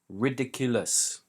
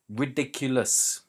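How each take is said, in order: The two takes are said the same way.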